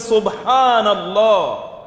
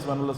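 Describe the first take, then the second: First: It is said slowly and with feeling. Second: It is said quickly and mechanically.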